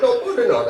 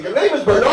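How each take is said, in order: First: "Bernard" stretched into extra syllables, like "Ber-mi-nard". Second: "Bernard" said cleanly in two syllables, correcting him; correcting the name. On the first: Retold or imitated. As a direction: say "Bernard" with added syllables, the way the waiter did. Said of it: "You added too many syllables". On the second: Shown as a demonstration. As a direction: stress "Bernard" plainly as two syllables, firmly.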